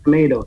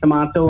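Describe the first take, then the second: First: It is said in a Canadian accent. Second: It is said in a Trinidadian accent. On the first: "When I'm in Canada, I say tomatoes" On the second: "when I'm in Trinidad, I say tomato"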